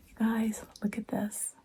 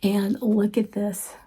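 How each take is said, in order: First: Secretive excited whisper. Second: Said in the usual way. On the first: Real, not acted. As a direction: drop to a hush to show the treasure. Showing book to viewers.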